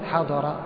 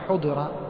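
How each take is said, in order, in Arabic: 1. تبدأ الكلمة بحركة 'a'. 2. تبدأ الكلمة بحركة 'u'. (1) "كما تقول حضر" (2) "ما تقول حضر"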